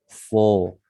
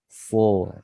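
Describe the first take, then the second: The two takes are said the same way.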